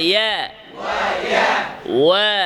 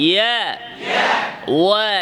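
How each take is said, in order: No difference in how they are said.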